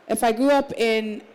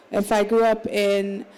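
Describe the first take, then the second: No difference in how they are said.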